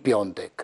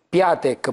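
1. La prima sillaba si dice 'pion', nasale. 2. La prima sillaba si dice 'pia', semplice. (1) "perché dicono tutti Piontek" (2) "si chiamano Piatek"

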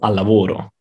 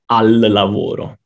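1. La L di 'al' si unisce a 'lavoro'. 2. La L di 'al' si pronuncia separatamente. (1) "ma dico al lavoro" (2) "non dico al lavoro"

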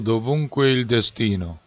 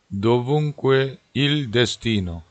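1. 이 구절은 빠르게 말합니다. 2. 이 구절은 느리게 말합니다.

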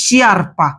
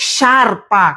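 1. এটি sh ধ্বনি এবং একটি i-glide দিয়ে শুরু হয়। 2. এটি একটি সাধারণ sh ধ্বনি দিয়ে শুরু হয়। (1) "অনেকে বলবে ভাই ... আমি এটাকে শি পড়লাম" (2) "কিভাবে উচ্চারণ করতে হবে শার্পা"

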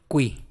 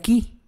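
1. Se dice como 'kwi' con sonido de w. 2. Se dice como 'ki' simple, sin w. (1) "en italiano sí vas a pronunciar esta? De tal manera que vas a decir qui" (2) "en español sería qui"

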